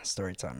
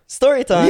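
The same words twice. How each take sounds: First: It is said flatly, with little energy. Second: It is said excitedly, with more energy.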